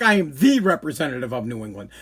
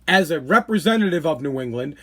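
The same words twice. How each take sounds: First: "the" said as a strong "thee"; stress on THE. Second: Said in the usual way. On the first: Real, not acted. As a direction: lean on "the" as the one and only. Corrects "a" to emphatic "the.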